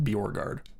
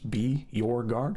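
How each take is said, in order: First: It is said smoothly as one word. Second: It is said as three separate words. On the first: "combine it into one word" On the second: "Like it's three words"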